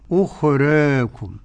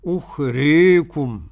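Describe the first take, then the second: First: The long a leans slightly toward ee. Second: The long a leans strongly toward ee. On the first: "التقليل بين الفتح الخالص وبين الإمالة" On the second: "الإمالة الكبرى أكثر"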